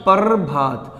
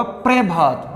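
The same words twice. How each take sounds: First: "प्रभात" as "parr-bhaat", the r drawn out; "प्रभात" with a vowel before a long r; split "par" pronunciation. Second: "प्रभात" as "pre-bhaat", p and r fused; "प्रभात" with no vowel before the r; joined "pra" pronunciation. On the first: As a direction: hold the r at the end of "par" in "प्रभात". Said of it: "उच्चारण करोगे तो क्या बोलेगा". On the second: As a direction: start "प्रभात" on a tight pr cluster. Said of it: "दोनों में क्या है". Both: Shown as a demonstration.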